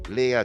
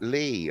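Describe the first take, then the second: First: The name is said as two syllables. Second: The name is said as one syllable. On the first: The speaker calls it right. "Leah, two syllables" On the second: The speaker calls it wrong. "not Lee"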